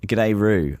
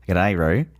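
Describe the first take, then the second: First: It is said in the speaker's normal accent. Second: It is said in an Australian accent.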